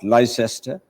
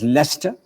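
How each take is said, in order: First: It is said as the spelling suggests. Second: It is said the local British way. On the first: The speaker calls it wrong. "and not Leicester" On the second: The speaker calls it right. "pronounced as Leicester"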